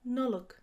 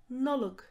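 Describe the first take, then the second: No difference in how they are said.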